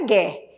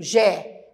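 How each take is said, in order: First: The G is a hard sound, like in go. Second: The G is a soft sound, like a J. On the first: The speaker calls it wrong. "não é Gué" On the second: The speaker calls it right. "o som do G é o mesmo que o som do J"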